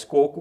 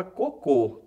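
First: Coco said KO-ku, stress on the first syllable and the last o reduced to u; teacher corrects herself and shows coco with a weak final u. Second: Cocô, stress on the last syllable, closed final ô; teacher shows cocô with its closed, stressed final ô. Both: Shown as a demonstration. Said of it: "há uma diferença entre coco e cocô".

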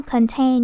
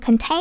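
First: Said in the usual way. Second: "contain" with "tain" swooping up high; wrong high tone. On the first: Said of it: "như vậy không có dấu thanh ngang". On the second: Shown as a demonstration. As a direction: mimic a misreading of "contain" with a raised tone on the end. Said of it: "em đọc có được contain đúng không". (đọc sai "contain", lên giọng cao ở "tain")

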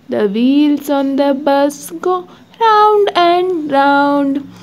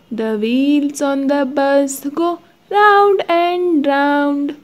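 No difference in how they are said.

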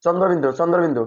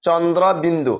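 First: চন্দ্রবিন্দু slurred as chondobindu; quick, squashed চন্দ্রবিন্দু; common mispronunciation. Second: চন্দ্রবিন্দু as chon-dro bindu, r sounded; careful, spaced চন্দ্রবিন্দু; correct letter name. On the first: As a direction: say চন্দ্রবিন্দু run together with a weak r. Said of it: "অনেকে উচ্চারণ করে". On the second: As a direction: open out chondro before bindu in চন্দ্রবিন্দু. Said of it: "এর সঠিক উচ্চারণ হচ্ছে যে". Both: Shown as a demonstration.

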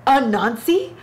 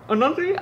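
First: "Anansi?" asked with a rising, incredulous lift; questioning. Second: "Anansi?" shot up much higher in disbelief; incredulous. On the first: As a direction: raise the question mark on Anansi. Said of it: "First of all, Anansi". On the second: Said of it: "let's talk about Anansi". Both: Real, not acted.

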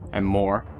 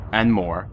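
The two takes are said the same way.

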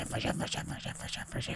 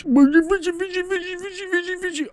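First: Chanted, voiceless, rapid, hushed repetition; chanted, whisper it over and over. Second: Very high rapid chant; frantic squeal. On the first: Gamer still reeling in the fish, whispered chant. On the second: Gamer frantically reeling in a fish, high squealed chant. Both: Real, not acted.

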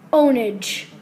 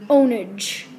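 The two takes are said the same way.

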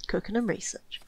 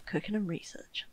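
First: Said in the usual way. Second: "cooking and research" whispered softly under her breath. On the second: Shown as a demonstration. Streamer muttering her colony priorities to herself, soft whisper.

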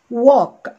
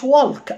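First: Walk with a silent L, wok; right walk. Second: Walk with the L sounded, wolk; wrong walk. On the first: Teacher modeling the correct walk for students. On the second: Teacher showing the wrong way to say walk. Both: Shown as a demonstration. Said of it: "ما اسمهاش walk".

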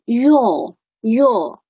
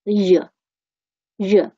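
First: "your" with a full long "or" vowel; strong form. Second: "日" as a short reduced "yer"; weak form of your. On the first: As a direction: give "your" its whole vowel. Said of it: "这个是非常明显的". (强读your，元音饱满) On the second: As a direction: shrink your to a brief schwa, "日". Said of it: "它的弱德形式分成日". (your弱读，短而轻) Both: Shown as a demonstration.

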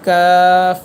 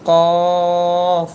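First: কাফ said loud and light, tongue further forward; crisp light কাফ; thin kaf. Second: কফ said heavy from the tongue root; thick qaf. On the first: Teacher contrasting light কাফ with heavy কফ. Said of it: "কাফ হরফটি এভাবে বললে". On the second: Teacher contrasting thick কফ with thin কাফ. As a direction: make কফ full and thick. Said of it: "একটু মোটা হবে কফ হরফটি". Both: Shown as a demonstration.

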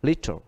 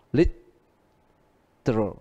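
First: Literal said fast American style, squeezed to two syllables "lit-ral". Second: Literal said very slowly with every syllable; careful full form. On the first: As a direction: clip literal quickly the American way. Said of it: "Đọc nhanh theo âm Mỹ". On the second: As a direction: spell out literal slowly, li-te-ral. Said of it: "Đọc nhanh theo âm Mỹ thì literal". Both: Shown as a demonstration.

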